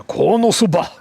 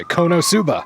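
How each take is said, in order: First: Loud, high "Konosuba" as "KAW-nuh-SOO-buh"; rejected pronunciation. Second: High, emphatic "Konosuba" as "KOH-noh-SOO-buh"; preferred pronunciation. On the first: Host showing what he won't say, "Konosuba" as "KAW-nuh-soo-buh". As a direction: say "Konosuba" with an open first O and a reduced second. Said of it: "that's why I don't say". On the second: Host showing his own way, "Konosuba" as "KOH-noh-soo-buh". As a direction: give "Konosuba" two full long O sounds. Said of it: "I say". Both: Shown as a demonstration.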